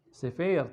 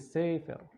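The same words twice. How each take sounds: First: The stress is on the second syllable. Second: The stress is on the first syllable. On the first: The speaker calls it wrong. "bukan sefer" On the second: The speaker calls it right. "tapi sefer. Jadi aksen atau intonasi jatuh pada uh, suku kata pertama"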